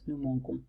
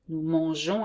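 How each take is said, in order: First: The g is hard, like in go. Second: The g is soft, like zh. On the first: The speaker calls it wrong. "and not" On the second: The speaker calls it right. "to make the sound je"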